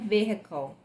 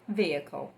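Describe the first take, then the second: First: The H sound is clearly pronounced. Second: The H sound is not pronounced. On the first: It is used in some regions. "Às vezes é admissível o som do H" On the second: It is the general, usual form. "no geral, a gente vai usar vehicle"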